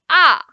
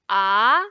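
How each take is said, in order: First: The pitch falls sharply from high to low. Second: The pitch rises from mid to high. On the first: "the fourth tone we are going down" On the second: "second tone is going up"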